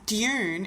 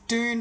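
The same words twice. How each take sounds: First: It is said with a British pronunciation. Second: It is said with an American pronunciation. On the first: "in English people pronounce dune" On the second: "is dune by Americans"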